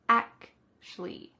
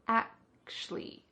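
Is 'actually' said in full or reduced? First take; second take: reduced; reduced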